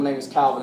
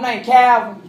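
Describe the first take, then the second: First: It is said in a British Liverpool accent. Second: It is said in a Southern American accent.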